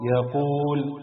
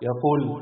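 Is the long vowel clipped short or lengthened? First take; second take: lengthened; clipped. First: The long vowel is held for two counts. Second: The long vowel is cut short. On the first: The speaker calls it right. "نفس الكلمات بعد تطبيق المد الطبيعي" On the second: The speaker calls it wrong. "هقرأ 3 كلمات فيهم مد طبيعي بس من غير ما مد"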